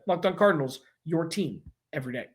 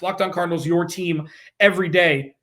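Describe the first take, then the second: First: It ends falling, like a statement. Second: It ends rising, like a question.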